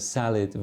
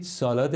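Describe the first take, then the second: First: It is said with an English-style pronunciation. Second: It is said with a Persian-style pronunciation.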